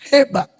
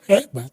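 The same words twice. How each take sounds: First: It sounds like sincere praise. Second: It sounds mocking, with the middle stressed.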